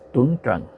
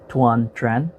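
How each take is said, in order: First: The name is said with a Vietnamese pronunciation. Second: The name is said with an American pronunciation. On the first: "the Vietnamese pronunciation" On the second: "pronounce it in the American way"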